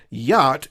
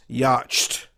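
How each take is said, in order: First: Said in the usual way. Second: "yacht" misread as "yatch-t", the CH pronounced; "yacht" said as a struggling reader decodes it, YAH-CH-T; misread with CH sounded. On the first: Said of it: "not reading it as the whole yacht". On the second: Shown as a demonstration. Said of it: "So ya with the C H".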